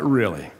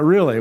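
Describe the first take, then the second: First: Flat really. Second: "Really?" higher and louder, incredulous; louder incredulous retort; surprised really. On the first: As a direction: say "Really?" dry and deadpan. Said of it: "I was like". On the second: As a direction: throw out "Really?" in open disbelief. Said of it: "was like". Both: Retold or imitated.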